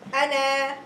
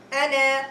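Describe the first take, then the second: First: The final vowel is long. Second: The final vowel is long.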